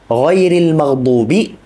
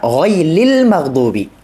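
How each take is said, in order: First: The r sound is said as a trilled r. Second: The r sound is replaced by an l. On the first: "ketika dia membaca contohnya" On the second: "mengubah huruf ra menjadi huruf lam"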